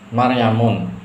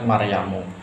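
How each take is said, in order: First: The word ends with an added 'n' sound. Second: The word ends on a plain 'u' vowel. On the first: The speaker calls it wrong. "ini salah" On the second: The speaker calls it right. "yang betul adalah Maryamu"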